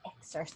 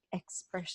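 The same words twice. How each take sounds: First: "excerpt" repeated carefully as EK-surt; "excerpt" said properly after a prompt; corrected pronunciation. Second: "expert" as a fumbled try at excerpt; "expert" said as a botched excerpt; mispronounced. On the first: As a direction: echo "excerpt" with the soft s after the k. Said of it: "there you go". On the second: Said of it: "learn how to say that". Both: Real, not acted.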